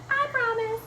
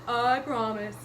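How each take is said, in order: First: High little cat voice; promising cat. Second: Promising dog. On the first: Cat answers Mister Gumpy, high-pitched promise. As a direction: promise in a small, high kitty voice. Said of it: "Cat said". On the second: Dog answers Mister Gumpy, doggy promise. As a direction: promise as a good puppy. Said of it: "Dog said". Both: Acted.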